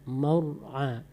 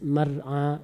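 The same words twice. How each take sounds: First: The r is pronounced thick with rounded lips. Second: The r is pronounced thin and light. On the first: The speaker calls it right. "Nanti ditebalkan, bulat aja mulut tuh" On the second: The speaker calls it wrong. "tadi dibaca tipis-tipis"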